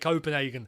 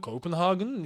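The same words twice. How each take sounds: First: The name is said with an English pronunciation. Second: The name is said with a Danish pronunciation. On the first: "If you want to don't want to be Danish" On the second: "If you want to be Danish"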